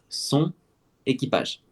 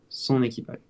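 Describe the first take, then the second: First: The N stays separate from the following vowel. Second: The N links into the following vowel. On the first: "sans liaison" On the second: "vu qu'on a la liaison"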